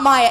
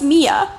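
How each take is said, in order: First: The first vowel sounds like 'eye'. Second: The first vowel sounds like 'ee'. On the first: The speaker calls it wrong. "It is not Maya" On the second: The speaker calls it right. "My name is Mia"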